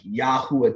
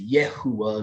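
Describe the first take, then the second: First: The first syllable has an 'ah' vowel. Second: The first syllable has an 'eh' vowel. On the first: This is the original form of the name. The speaker calls it right. "they stopped using the Yah sound" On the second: This is a later, altered form of the name. The speaker calls it wrong. "they started using the Yeh sound"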